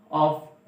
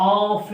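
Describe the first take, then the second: First: Said in the usual way. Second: "ऑफ" with a long held vowel; drawn-out vowel. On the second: Shown as a demonstration. Teacher showing short-vowel learners what to avoid, "ऑफ" with vowel dragged out. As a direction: stretch the vowel in "ऑफ". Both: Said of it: "अब यहाँ पे ऑफ नहीं बोलते हैं".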